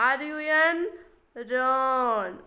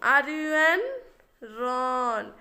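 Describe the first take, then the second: The two takes are said the same way.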